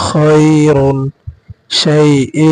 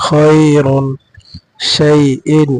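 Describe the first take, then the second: The two takes are said the same way.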